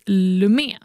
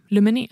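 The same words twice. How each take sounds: First: Lumé said slowly in two syllables, ending on the é; slow, tentative reading of Lumé as a brand name; unsure name pronunciation. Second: Lumene said in three syllables, with an added "ne" ending; second guess at Lumene, sounding out the final "ne"; alternative name pronunciation. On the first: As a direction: try Lumé, stopping after "mé". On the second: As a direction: try Lumene with the extra syllable at the end. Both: Real, not acted. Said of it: "Hur säger man?".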